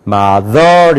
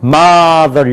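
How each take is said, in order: First: Mother with THER stretched and stressed; end-stressed, slow mother; stress on second syllable. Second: Mother with MO stretched and stressed; front-stressed, slow mother; stress on first syllable. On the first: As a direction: lean long on the last syllable of mother. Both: Shown as a demonstration. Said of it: "어떤 게 맞는 것 같아요".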